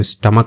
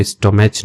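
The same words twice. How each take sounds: First: स्टमक said stum-uk with a short u; correct pronunciation. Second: स्टोमच said sto-mach with a long o; wrong pronunciation. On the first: Teacher gives students the right way to say stomach. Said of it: "इसको स्टमक पढ़ते हैं". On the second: Teacher warns students against misreading stomach. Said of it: "इसको स्टोमच नहीं पढ़ते हैं". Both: Shown as a demonstration.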